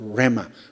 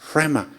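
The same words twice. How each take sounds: First: It is said plainly with no breathy h. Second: It is said with a breathy h after r. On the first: The speaker calls it wrong. "그냥 레마가 아니라" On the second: The speaker calls it right. "히읗이 흐 발음이 들어갑니다"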